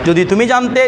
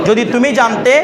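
No difference in how they are said.

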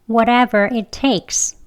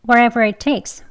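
First: The phrase is said slowly. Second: The phrase is said fast. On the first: "천천히 두 번 합니다" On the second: "이번엔 빨리 할게요"

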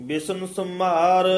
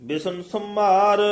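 No difference in how they are said.

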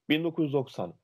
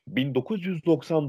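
First: Some sounds are swallowed and slurred together. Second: Every sound is clearly and fully pronounced. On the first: The speaker calls it wrong. "Nerede oradaki Y harfi? Nerede O harfi?" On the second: The speaker calls it right. "Hayır"

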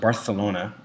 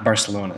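First: The 'c' is said as a lisped 'th'. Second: The 'c' is said as a plain 's'. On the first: The speaker calls it right. "it's pronounced Barthelona, like a lisp" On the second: The speaker calls it wrong. "It was not Barcelona"

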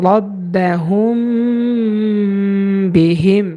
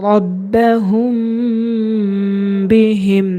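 The two takes are said the same way.

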